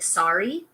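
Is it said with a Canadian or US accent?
US. It is said with a US accent.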